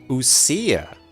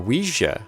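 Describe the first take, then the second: First: It is pronounced like 'oo-see-ah'. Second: It is pronounced like the word 'Ouija'. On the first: The speaker calls it right. "That's how you pronounce that" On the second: The speaker calls it wrong. "I was saying Ouija"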